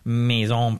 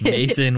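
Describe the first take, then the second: First: The name is pronounced the French way. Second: The name is pronounced the English way. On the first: The speaker calls it wrong. "you said it very French" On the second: The speaker calls it right. "she just says it like Mason"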